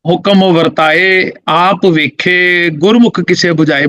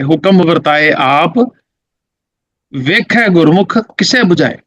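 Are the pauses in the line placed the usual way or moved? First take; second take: usual; moved. First: The line is phrased with its usual pauses. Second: The line is phrased with its pauses moved. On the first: The speaker calls it wrong. "ਆਮ ਤੌਰ ਤੇ ਬਿਲਕੁਲ ਉਸ ਤਰ੍ਹਾਂ ਪੜੀ ਜਾਂਦੀ ਹੈ" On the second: The speaker calls it right. "ਫਿਰ ਮੈਂ ਇਹਦੇ ਐਵੇਂ ਕਰਤੇ"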